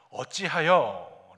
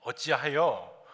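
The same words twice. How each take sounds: First: 어찌하여 drawn out slow and louder, falling; son's question back. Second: 어찌하여 stretched slowly with a falling tune; mother's question. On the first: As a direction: throw 어찌하여 back at her, slow and pointed. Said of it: "거꾸로 질문하고 있습니다". (어찌하여를 되묻듯 느리고 힘있게) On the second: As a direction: ask 어찌하여 slowly, a touch reproachful. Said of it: "어머니 마리아가". (어찌하여를 느리게 끄는 어머니의 물음) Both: Retold or imitated.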